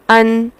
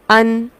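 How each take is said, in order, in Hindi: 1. अंतिम व्यंजन की ध्वनि केवल मध्यम रूप से रोकी जाती है। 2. अंतिम व्यंजन की ध्वनि केवल मध्यम रूप से रोकी जाती है।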